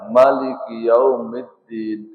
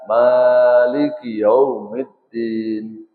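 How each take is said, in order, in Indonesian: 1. Vokal pertama pada Maliki pendek. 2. Vokal pertama pada Maliki panjang. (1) "Ada yang boleh dibaca pendek" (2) "ada yang boleh dibaca panjang"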